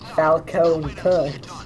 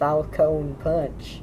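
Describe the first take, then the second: First: It is said with high enthusiasm. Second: It is said with mild enthusiasm.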